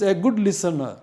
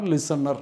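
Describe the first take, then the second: First: "listener" with a silent final R; correct pronunciation. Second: "listener" with the final R sounded; wrong regional pronunciation. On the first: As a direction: end "listener" on an open "uh". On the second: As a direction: end "listener" on a clear R. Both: Shown as a demonstration. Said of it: "not listener".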